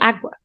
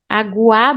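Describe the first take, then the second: First: The word is said quickly with sounds run together. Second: The word is said slowly with every sound full.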